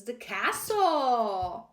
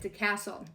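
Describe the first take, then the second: First: Very slow, louder drawn-out announcement; dramatic card reveal. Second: Said in the usual way. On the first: Real, not acted. Revealing the drawn card to viewers, slow dramatic announcement. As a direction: unveil the card name like a reveal.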